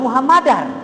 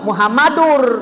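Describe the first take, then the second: First: The word ends with an 'ar' sound. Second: The word ends with an 'ur' sound. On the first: The speaker calls it wrong. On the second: The speaker calls it right.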